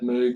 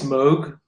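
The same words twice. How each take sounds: First: Moog is said the British way. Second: Moog is said the non-British way. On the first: This is how British people say it. "Brits have always said Moog" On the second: This is the form the speaker thinks is correct. "I think it's Moog"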